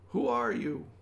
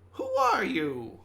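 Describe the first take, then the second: First: It is said in an ordinary, unsqueaky voice. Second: It is said in a high, squeaky voice. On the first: The speaker calls it wrong. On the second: The speaker calls it right.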